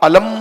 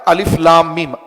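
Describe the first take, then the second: First: The letters are joined into one word. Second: Each letter name is said separately. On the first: The speaker calls it wrong. "अलम नहीं पढ़ते आप" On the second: The speaker calls it right. "अलिफ को अलग पढ़ते हैं, लाम को अलग पढ़ते हैं, मीम को अलग पढ़ते हैं"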